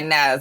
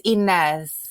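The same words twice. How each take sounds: First: The name is said in a plain everyday way. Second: The name is said in a flirtatious, showy way. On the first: This is the ordinary Southern pronunciation. "In the South, we would say Inez" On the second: The speaker is flirting with someone. "if she was flirting with some guy at the grocery store, she might say"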